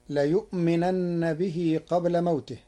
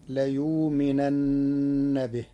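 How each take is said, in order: First: Said in the usual way. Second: ليؤمنن with the hamza turned into a silent waw, layuuminanna; Warsh reading. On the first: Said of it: "قرأ ورش كلمة ليؤمنن". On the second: Shown as a demonstration. Sheikh demonstrating the Warsh reading, ليؤمنن with waw for hamza. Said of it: "بإبدال الهمزة واوا ساكنة".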